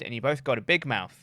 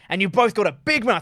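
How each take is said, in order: First: It is said flatly, with little energy. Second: It is said forcefully, with fiery energy. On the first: The threat carries no real menace. The speaker calls it wrong. "he kind of said it like that" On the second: The threat sounds genuinely menacing. The speaker calls it right. "rather than like"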